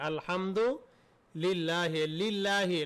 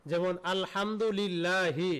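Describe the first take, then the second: First: Slow drawn out. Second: Said in the usual way. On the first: Shown as a demonstration.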